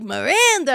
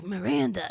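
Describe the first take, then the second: First: Higher, cheerful mock-happy voice; lightly acted happiness, pitched up; imitated happy. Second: Small, soft mock-scared voice; understated, timid impression of fear; imitated scared. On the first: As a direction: say it brightly, imitating someone happy. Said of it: "you're nervous or you're happy". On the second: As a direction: say it quietly, as if imitating someone frightened. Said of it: "You're scared".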